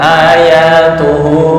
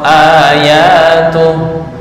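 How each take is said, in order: First: The word ends on a final u vowel. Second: The word ends cleanly on the h sound. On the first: The reciter hesitates before stopping. The speaker calls it wrong. "Jangan ayatuhu, ragu" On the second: The reciter is stopping here. The speaker calls it right. "wakaf ayatuh"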